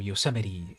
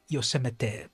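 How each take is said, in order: First: It is pronounced the usual American English way. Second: It is pronounced unlike the usual American way. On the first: It is how most American English speakers say it. "just common uh, American English pronunciation" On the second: "it probably is like Yo- Yosemite, Yosemite, probably something like that"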